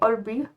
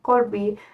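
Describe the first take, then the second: First: The word starts with a glottal stop. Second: The word starts with a k-like sound. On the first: "you say olbi" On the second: "instead of saying korbi"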